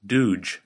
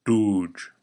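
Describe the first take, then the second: First: "dooge" with an ordinary English D, tongue tip on the ridge; "dooge" with a plain English D. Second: "Dooge" with the tongue farther back past the ridge; "Dooge" with a careful Klingon D. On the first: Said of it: "using the English D sound". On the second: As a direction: model "Dooge" for the learner to repeat. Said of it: "Say it after me". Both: Shown as a demonstration.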